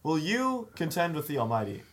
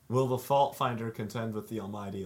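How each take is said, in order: First: It is said in a scolding, casual tone. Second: It is read plainly, like scripture.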